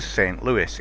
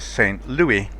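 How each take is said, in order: First: Louis is pronounced in an American style. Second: Louis is pronounced in a French style. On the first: The speaker calls it right. "It's American, it's not French" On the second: The speaker calls it wrong. "my natural pronunciation for it, but not correct"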